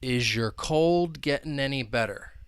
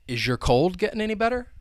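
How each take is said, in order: First: The sentence is said at a slower pace. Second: The sentence is said at a quicker pace.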